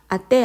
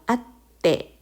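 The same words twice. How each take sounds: First: The t sound is short with no hold. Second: The t sound is held long before release. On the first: The speaker calls it wrong. "아떼 아닙니다" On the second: The speaker calls it right. "아떼 이렇게 가시고요"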